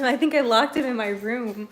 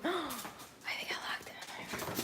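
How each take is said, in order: First: Said in the usual way. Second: Gasped, breathy whisper of realization; hushed dismay after a gasp; shocked whisper. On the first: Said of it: "plain take". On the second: Real, not acted. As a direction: whisper it in horror. Gasp, realizes dog locked.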